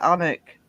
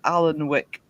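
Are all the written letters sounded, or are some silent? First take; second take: some silent; all sounded. First: Some of the written letters are left silent. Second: Every written letter is sounded out in full. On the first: This is how locals say the name. The speaker calls it right. "the town I live in's called uh" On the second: This is how visitors read the name. The speaker calls it wrong. "tourists tend to think it's called"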